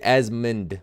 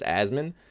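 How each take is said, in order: First: The name ends with a D sound. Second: The name ends without a D sound. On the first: "some people even say Asmund with a D at the end" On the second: "Everyone says Asmon"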